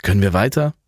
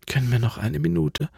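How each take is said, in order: First: Said in the usual way. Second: Higher, softer, exhausted asking for a rest; tired plea. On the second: Acted. Alva, exhausted, asks Franz for a short rest. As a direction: beg for a minute, worn out. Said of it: "bat Alva".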